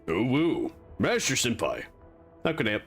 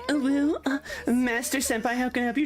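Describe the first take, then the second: First: It is said in an imitated Indian accent. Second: It is said in a cute anime-girl voice.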